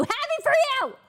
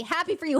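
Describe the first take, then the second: First: Happy for you! yelled high and loud; bitter shouted congratulations. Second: Said in the usual way. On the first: Real, not acted. Streamer yelling mock congratulations at Ludwig.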